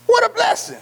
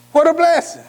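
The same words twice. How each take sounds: First: Very high joyful cry; high exclamation of joy; exclaiming. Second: Higher but settling back; a lighter echo of joy; echoed praise. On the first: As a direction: soar up on the praise. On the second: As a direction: repeat the praise a bit calmer. Echoing the exclamation. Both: Real, not acted.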